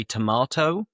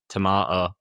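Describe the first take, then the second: First: Said in the usual way. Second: Yorkshire "tomato", t dropped and final vowel flat; Yorkshire accent. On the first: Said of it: "We wouldn't say tomato". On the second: Shown as a demonstration. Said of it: "we'd say tomato".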